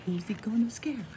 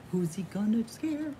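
Both takes have the same delivery.

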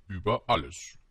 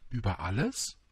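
First: ÜBER ALLES as a plain, falling answer; matter-of-fact Über alles, pitch falling; simple statement. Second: ÜBER ALLES rising sharply at the end; incredulous Über alles, lifted on alles; questioning echo. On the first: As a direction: state Über alles with a firm downward close. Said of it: "antwortete der König mit großer Einfachheit". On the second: Prince echoes in astonishment. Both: A narrator's reading.

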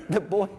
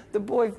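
The two takes are said the same way.

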